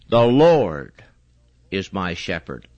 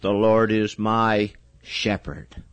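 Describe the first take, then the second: First: The stress is on Lord. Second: The stress is on shepherd.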